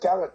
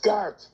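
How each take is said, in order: First: The name is said with two syllables. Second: The name is said with one syllable. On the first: The speaker calls it wrong. "one of these people who says Gareth Brooks" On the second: The speaker calls it right. "That's [name]"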